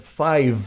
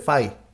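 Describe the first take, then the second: First: The final v sound is clearly released. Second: The final v sound is dropped. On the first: The speaker calls it right. "Cuando es five" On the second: The speaker calls it wrong. "Hay gente que dice five"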